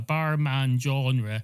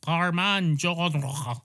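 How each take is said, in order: First: Genre is pronounced the plain English way. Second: Genre is pronounced with a French accent.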